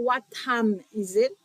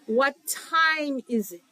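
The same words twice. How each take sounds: First: The vowel in 'time' is a plain 'ah'. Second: The vowel in 'time' glides like 'eye'. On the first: The speaker calls it wrong. "Et pas" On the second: The speaker calls it right. "l'on a dit qu'il est lié"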